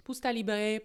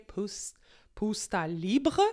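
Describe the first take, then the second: First: Said in the usual way. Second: Slow, hammed-up German accent on Pusta Libre; bad German accent. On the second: Shown as a demonstration. Host says the Austrian wine's name in a self-mocking German accent. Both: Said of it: "c'est mon accent allemand qui est désastreux".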